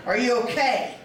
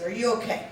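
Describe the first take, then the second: First: Firmer, pressing question; insistent check-in; serious concern. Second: Said in the usual way. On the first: Retold or imitated. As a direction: ask it again in earnest, with more weight. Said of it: "No, seriously".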